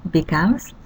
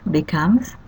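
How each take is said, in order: No difference in how they are said.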